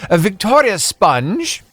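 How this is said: It is said in a put-on British accent.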